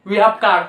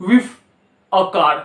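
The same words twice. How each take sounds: First: Said in the usual way. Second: "with a car", we have squeezed to "with". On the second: Shown as a demonstration. Teacher giving the spoken form of we have a car. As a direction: say "with" in place of we have. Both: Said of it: "इसको पढ़ोगे with".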